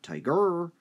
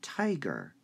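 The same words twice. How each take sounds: First: The stress is on the second syllable. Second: The stress is on the first syllable. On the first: The speaker calls it wrong. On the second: The speaker calls it right. "you have to be able to hear the vocalization"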